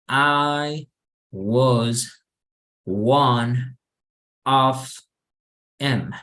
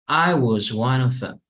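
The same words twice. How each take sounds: First: The words are said separately, one by one. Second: The words are linked together in one flow. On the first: The speaker calls it wrong. "no así como lo acabo de leer" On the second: The speaker calls it right. "estoy conectando todas las palabras"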